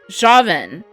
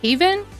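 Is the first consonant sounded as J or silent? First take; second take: J sounded; silent. First: The name starts with a J sound. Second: The name starts without a J sound. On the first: The speaker calls it right. "Not a silent J. A makes the ah sound" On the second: The speaker calls it wrong. "Are you going with a silent J pronunciation?"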